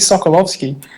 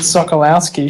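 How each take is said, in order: First: The name is said with Polish sounds. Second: The name is said with English sounds. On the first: The speaker calls it right. "She's Polish, isn't she? Just, that would be" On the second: The speaker calls it wrong. "She's pronounced it"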